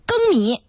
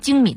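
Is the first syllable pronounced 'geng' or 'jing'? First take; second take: geng; jing. First: The first syllable is pronounced geng. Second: The first syllable is pronounced jing. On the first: This is the newly standardized reading. The speaker calls it right. "现在要叫更米" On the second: This is the reading most people have used. The speaker calls it wrong. "大部分人都会读成精米，但现在人不能叫精米了"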